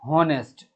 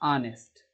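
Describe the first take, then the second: First: The word begins with an h sound. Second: The word begins with a vowel sound. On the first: The speaker calls it wrong. "बहुत सारे बच्चे बोलते हैं हॉनेस्ट, ये गलत है" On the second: The speaker calls it right. "इसका सही उच्चारण होता है ऑनेस्ट, आ से शुरू होता है"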